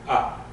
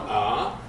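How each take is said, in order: First: Short, quick "ah"; fast vowel. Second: Lower, drawn-out "ah"; long vowel. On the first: Teacher showing the other vowel, short fast "ah". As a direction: cut the "ah" off fast. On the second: Teacher showing the patach, long held "ah". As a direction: hold the "ah" long. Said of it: "it's the long one". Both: Shown as a demonstration.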